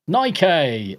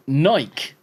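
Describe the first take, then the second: First: Nike said as NIKE-ay, slowly; mocking, drawn-out NY-kay for Nike; pretentious pronunciation. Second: Said in the usual way. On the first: Shown as a demonstration. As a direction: stretch Nike into two syllables, NY-kay. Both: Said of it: "you fucking pretentious bastards".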